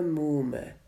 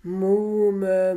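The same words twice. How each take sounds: First: Said in the usual way. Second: Loud, higher call of Muhme. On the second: A narrator's reading. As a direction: call out Muhme to cut her off. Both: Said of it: "aber dann rief er".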